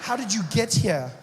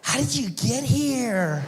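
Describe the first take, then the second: First: Pointed question thrown back, less high; mocking retort. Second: Put-on high, slow, amazed surfer-girl question; California babe. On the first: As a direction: fire her question back at her. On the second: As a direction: wonder like a ditzy beach girl. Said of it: "California babe".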